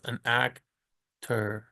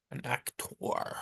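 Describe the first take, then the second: First: Said in the usual way. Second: Very soft, drawn-out, whispery "actor"; affected aside. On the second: Shown as a demonstration. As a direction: say "actor" slowly under your breath, weight on the last syllable. Repeats the word in affected aside.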